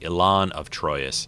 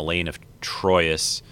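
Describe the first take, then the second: First: The name's first part does not sound like 'Elaine'. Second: The name's first part sounds like 'Elaine'. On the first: The speaker calls it right. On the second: The speaker calls it wrong.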